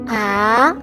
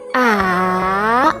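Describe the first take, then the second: First: The pitch starts mid-high and rises. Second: The pitch starts low, dips, then rises. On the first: "starts in the mid-high point in your vocal range and then goes up in pitch" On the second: "your pitch starts lower, then falls in pitch and then rises again"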